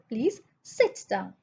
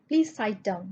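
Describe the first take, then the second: First: The vowel in sit is a short 'i'. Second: The vowel in sit sounds like 'eye'. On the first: The speaker calls it right. "I sounds like E" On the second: The speaker calls it wrong. "We don't say sight"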